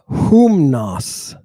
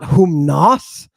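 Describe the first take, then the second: First: "humnos" slow, with a long stressed "hum"; correct stress. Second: "humnos" with the weight moved onto "nos"; wrong stress. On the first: Teacher correcting the accent, first syllable stressed. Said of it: "but humnos". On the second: Teacher showing how not to say it, final syllable stressed. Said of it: "Not humnos". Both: Shown as a demonstration.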